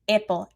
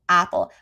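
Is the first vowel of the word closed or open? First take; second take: closed; open. First: The first vowel is closed, like short i. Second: The first vowel is open, like short a. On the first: The speaker calls it wrong. "Maybe they're not opening at all on a" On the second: The speaker calls it right. "instead of apple"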